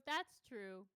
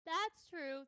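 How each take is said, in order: First: Said in the usual way. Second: Higher, louder agreement; emphatic agreement. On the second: Real, not acted. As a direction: agree with gusto.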